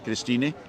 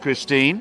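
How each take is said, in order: First: The name ends with an audible final vowel sound. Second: The name ends without a final vowel sound.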